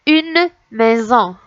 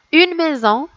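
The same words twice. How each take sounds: First: "Une maison" slowly, each word drawn out. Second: Said in the usual way. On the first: Shown as a demonstration. Teacher going over a word for children, word by word. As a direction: stretch "Une" and "maison" apart. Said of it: "on va recommencer mot par mot". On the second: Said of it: "Je vais vous lire les mots".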